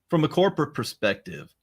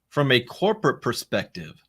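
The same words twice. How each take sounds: First: It is read at a fast pace. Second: It is read at a slower pace. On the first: The speaker calls it wrong. "I read that too fast" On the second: The speaker calls it right. "Let me do that one more time"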